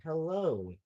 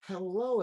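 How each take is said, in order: First: Said in the usual way. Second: Hello with a bright rising tune; sing-song hello that lifts at the end. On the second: Shown as a demonstration.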